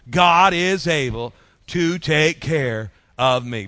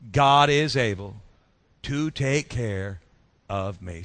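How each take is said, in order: First: It is said loudly and with strength. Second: It is said plainly, without extra force.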